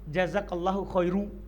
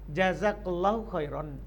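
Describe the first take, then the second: First: The last word ends in -u. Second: The last word ends in -an. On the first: The speaker calls it wrong. "yang salah kalau kita bilang jazakallahu khairu, kita dhammah" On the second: The speaker calls it right. "boleh kita tanwin"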